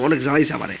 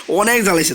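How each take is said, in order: First: Said in the usual way. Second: অনেক pushed higher and louder; repeating অনেক জ্বালাইছে higher and louder for emphasis; emphatic repeat. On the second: Real, not acted. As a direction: lean on অনেক the second time.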